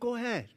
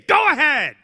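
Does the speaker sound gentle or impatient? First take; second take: gentle; impatient. First: It is said in a soft, gentle way. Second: It is said in a curt, impatient way. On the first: The speaker kindly lets someone go first. The speaker calls it right. "Patience is a quiet kind of a virtue" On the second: The speaker is annoyed at letting someone go first. The speaker calls it wrong. "they wouldn't say"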